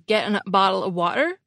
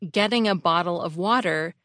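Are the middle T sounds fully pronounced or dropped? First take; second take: dropped; pronounced. First: The middle T sounds are dropped to a catch in the throat. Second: The middle T sounds are fully pronounced. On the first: "a hallmark of British Cockney speech is dropping T's in the middle of words" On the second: "Instead of getting a bottle of water"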